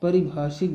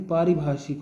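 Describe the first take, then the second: First: परिभाषिक with short a on the first syllable, paribhaashik; wrong form said. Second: पारिभाषिक with long aa on the first syllable, paaribhaashik; correct form said. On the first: (गलत रूप: परिभाषिक, पहले अक्षर पर छोटा अ) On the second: (सही रूप: पारिभाषिक, पहले अक्षर पर लंबा आ) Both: Shown as a demonstration. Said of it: "परिभाषिक भी नहीं होता".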